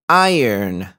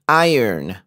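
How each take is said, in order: The two takes are said the same way.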